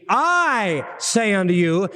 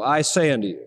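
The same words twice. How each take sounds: First: "I" said slow and leaned on, not "say"; stress on I. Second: Said in the usual way. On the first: Shown as a demonstration. Preacher stressing "I" over "say" to the congregation. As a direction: slowly hit the pronoun "I". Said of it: "the emphasis is on the sayer". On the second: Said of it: "the emphasis is not on the saying".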